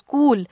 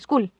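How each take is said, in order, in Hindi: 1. स्वर ध्वनि लंबी खिंची हुई है। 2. स्वर ध्वनि छोटी है। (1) "हम बोलते स्कूल, जो हमारी ऊ की आवाज है या यू की आवाज है ये थोड़ी लंबी जा रही है" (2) "स्कूल ऐसे नहीं बोलते"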